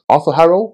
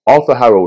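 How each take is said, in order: First: "Arthur Harrow" with a rising questioning end; unsure, questioning. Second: Said in the usual way. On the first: Real, not acted. Reviewer checking the character's name, "Arthur Harrow" questioning and rising.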